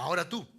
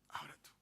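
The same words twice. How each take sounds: First: Said in the usual way. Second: Whispered, very soft "ahora tú"; near-silent, intimate aside; hushed repeat. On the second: Real, not acted. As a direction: drop to a whisper to make it personal.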